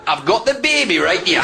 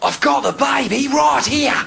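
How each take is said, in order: First: It is spoken in a Geordie accent. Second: It is spoken in an Australian accent. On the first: "a Geordie crocodile hunter. Couldn't have a big bloke from Newcastle going" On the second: "you could only have that in an Aussie accent"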